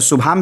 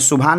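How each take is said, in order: First: The word ends with an m sound. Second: The word ends with an n sound. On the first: "शुभाम भी बोल सकते हैं" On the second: "लेकिन शुभान मैं क्यों बोल रहा हूँ"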